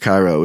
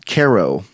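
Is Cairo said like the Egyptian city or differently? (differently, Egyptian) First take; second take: Egyptian; differently. First: It is pronounced like the Egyptian city. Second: It is pronounced unlike the Egyptian city. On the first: The speaker calls it wrong. "it's spelled like Cairo, Egypt, and it's not pronounced Cairo" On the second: The speaker calls it right. "it's Cairo"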